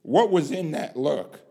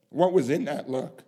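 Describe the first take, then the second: No difference in how they are said.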